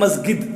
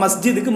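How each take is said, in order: First: The middle consonant is a hard g sound. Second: The middle consonant is a j sound.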